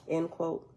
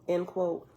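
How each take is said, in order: Both takes have the same delivery.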